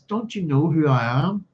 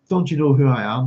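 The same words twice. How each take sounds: First: It is said in a sweet, lilting young voice. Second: It is said in a harsh, demanding voice.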